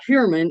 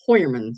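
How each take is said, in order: First: The first syllable sounds like 'hyoo'. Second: The first syllable sounds like 'hoy'. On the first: The speaker calls it wrong. "it's not Heuermann" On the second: The speaker calls it right. "it's Hoyerman. So it's a German name"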